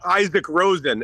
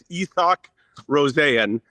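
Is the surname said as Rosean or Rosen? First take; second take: Rosen; Rosean. First: The surname is said like plain 'Rosen'. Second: The surname is said like 'Ro-sean'. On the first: The speaker calls it wrong. "it's not Isaac Rosen" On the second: The speaker calls it right. "It's Isak Rosean"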